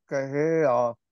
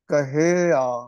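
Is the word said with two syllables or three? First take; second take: three; three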